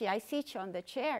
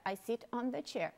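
First: "sit" turned into "city" before "on"; wrong extra final vowel. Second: "sit" stopped on the t before "on"; correct consonant ending. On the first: Teacher shows students the mistake, extra vowel on "sit". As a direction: add an ee sound after the t of "sit". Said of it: "Porque se eu falar sit". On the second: Teacher models the right sentence, clean final t on "sit". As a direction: say "sit" with no vowel after the t. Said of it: "você tem que falar sit". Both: Shown as a demonstration.

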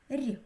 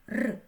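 First: "Р" as a soft, palatalized consonant. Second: "Р" as a hard, unpalatalized consonant. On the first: Teacher shows soft consonant sounds, soft palatalized "Р". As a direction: say a softened "Р", tongue raised as for "і". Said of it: "вимовляючи м'які звуки". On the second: Teacher shows hard consonant sounds, hard unpalatalized "Р". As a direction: say a hard "Р" sound, not softened. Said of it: "Ось як вимовляють приголосні тверді звуки". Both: Shown as a demonstration.

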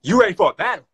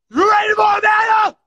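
First: Said in the usual way. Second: Higher, louder challenge shout; hype shout. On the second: Real, not acted. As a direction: call out the challenge loud. Hypes the same challenge louder.

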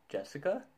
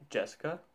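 First: Much higher, rising disbelief; incredulous question. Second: Raised, questioning pitch; puzzled question. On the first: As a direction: repeat the name high, not believing it. Repeats it in mounting disbelief. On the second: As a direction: query the name in disbelief. Reacts to being called Jessica. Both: Acted.

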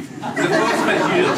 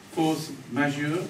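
First: Slow, loud, high flourish; confident, stretched-out French phrase; grand announcement. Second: Slow, tentative try with rising end; unsure French phrase. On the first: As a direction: proclaim "force majeure" with drawn-out pomp. Proclaims the corrected French phrase. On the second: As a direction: try out "Force majeure" as a question. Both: Real, not acted.

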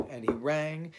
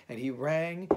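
No difference in how they are said.

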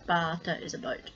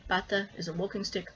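First: Bata with a long open ah like father. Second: Bata with a short, clipped a like pat. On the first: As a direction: stretch the first vowel of bata into a long ah. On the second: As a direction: say bata with a quick flat a as in pat. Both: Shown as a demonstration. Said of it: "for example ... minimal pairs".

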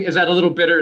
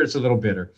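First: Said in the usual way. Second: Laughing admission. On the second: Real, not acted.

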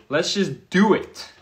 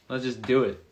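First: Higher, louder, slower pumped-up take; hyped-up repeat. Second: Said in the usual way. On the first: Retold or imitated. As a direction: sell the decision with energy. Retelling mindset, second take.

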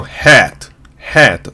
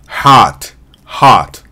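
First: ヘッド as hat, vowel between 'ah' and 'eh'; American hat, wide 'æ'. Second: ハート as hot, 'ah' tinged with 'o'; American hot, light final t; American hot vowel. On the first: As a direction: say ヘッド with the long cat vowel. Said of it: "あとえの中間の". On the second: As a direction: say ハート as an open 'haaht'. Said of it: "あにちょっとおが入った". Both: Shown as a demonstration.

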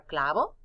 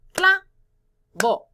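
First: Said in the usual way. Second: "Clavo" in two loud, high, separate beats; split into syllables. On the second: Shown as a demonstration. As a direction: break "Clavo" apart with a pause between cla and vo. ("Clavo" marcando cada sílaba, fuerte y con pausa) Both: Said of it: "¿Cuántas sílabas en palabra clavo?".

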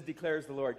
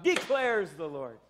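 First: Said in the usual way. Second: Slow, ringing judge's proclamation; judge shouting out. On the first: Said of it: "I like when it says". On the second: Shown as a demonstration. Pastor showing the church how a judge shouts it out. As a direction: pronounce it like a judge from the bench. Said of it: "like a judge shouting out".

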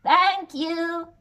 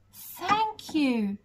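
First: Higher, louder grateful goat. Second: Lightly voiced grateful giraffe. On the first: Acted. Goat thanking the giant for the sail, grateful goat voice. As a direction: bleat a happy thank-you. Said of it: "said the goat". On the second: Giraffe thanking the giant, lightly voiced and grateful. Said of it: "said the giraffe".

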